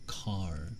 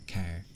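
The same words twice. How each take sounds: First: The word car has the standard vowel. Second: The word car has the speaker's regional vowel. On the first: "apparently I guess it's car" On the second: "I get made fun of for saying car this way"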